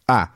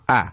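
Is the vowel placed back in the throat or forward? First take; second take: forward; forward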